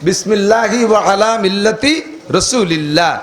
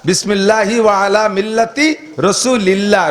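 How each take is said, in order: No difference in how they are said.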